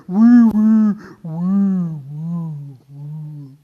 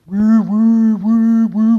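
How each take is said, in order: First: Clogged vacuum whirr. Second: Loud, steady woo-woo motor; healthy vacuum whirr. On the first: Speaker imitating a clogged vacuum cleaner, dying whirr. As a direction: let the whirr sag and die away. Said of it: "the filter gets full of dust and dirt". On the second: Speaker imitating a young vacuum cleaner, loud even whirr. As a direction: keep the motor humming strongly. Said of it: "vacuum cleaner is working really well". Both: Acted.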